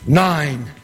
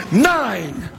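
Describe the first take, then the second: First: Lower, weighty statement; low emphatic repeat. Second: Emphatic call. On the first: Storyteller letting the winning count sink in, low and emphatic. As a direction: land it low and firm. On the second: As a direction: hit it hard and let it fall. Celebrated count of winning passes. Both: Acted.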